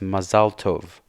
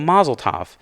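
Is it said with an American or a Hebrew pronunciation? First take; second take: Hebrew; American. First: It is said with the original Hebrew pronunciation. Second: It is said with an Americanized English pronunciation.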